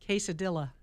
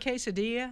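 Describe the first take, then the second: First: The ending is said as 'dilla', with an L sound. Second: The ending is said as 'diya', without an L sound. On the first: The speaker calls it wrong. "read that incorrectly" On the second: The speaker calls it right. "instead of quesadilla"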